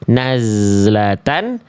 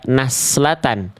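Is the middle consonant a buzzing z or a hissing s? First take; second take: buzzing z; hissing s. First: The middle consonant is a buzzing z sound. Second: The middle consonant is a hissing s sound. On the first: The speaker calls it right. "Yang harusnya kita baca nazlatan" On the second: The speaker calls it wrong. "eh malah kita baca naslatan"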